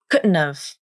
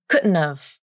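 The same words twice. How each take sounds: First: D is a glottal stop, T a nasal flap. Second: D is a glottal stop, T a nasal flap.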